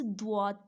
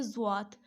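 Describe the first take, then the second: First: दुआत said with a clear d sound at the start; दुआत with d, as the teacher corrects it; correct pronunciation. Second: Put-on जुआत said with a z sound at the start, the way children misread it; जुआत with z, the common error; wrong pronunciation. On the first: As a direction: say दुआत with d, the right way. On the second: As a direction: say जुआत with z, as the mistake. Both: Shown as a demonstration. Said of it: "मगर इसे जुआत नहीं पढ़ना".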